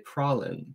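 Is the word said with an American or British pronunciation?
British. The word is said with a British pronunciation. This is how other people say it. "I've heard British people say pralin"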